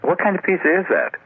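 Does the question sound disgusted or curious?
curious. It sounds curious and interested.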